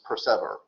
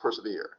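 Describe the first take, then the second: First: The word ends sounding like 'ever'. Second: The word ends sounding like 'here'. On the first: It forces the rhyme. The speaker calls it wrong. "we don't have to pronounce this persever" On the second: It is the word as normally said. The speaker calls it right. "We know what the word is"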